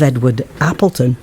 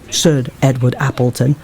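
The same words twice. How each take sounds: First: Said in the usual way. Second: "Sir" set apart and emphasised before the name; stress on Sir. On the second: Real, not acted. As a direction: lean on "Sir" as a pointed correction. Repeats the name adding title.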